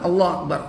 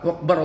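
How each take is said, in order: First: The phrase is said slowly and clearly. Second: The phrase is rushed and run together quickly. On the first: The speaker calls it right. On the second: The speaker calls it wrong. "Coba cepet-cepet"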